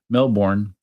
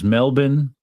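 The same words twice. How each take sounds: First: It is pronounced in a non-Australian way. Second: It is pronounced the way Australians say it. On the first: The speaker calls it wrong. "for for Melbourne" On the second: The speaker calls it right. "telling me how to pronounce certain things. It was Melbourne"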